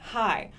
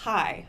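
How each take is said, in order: The two takes are said the same way.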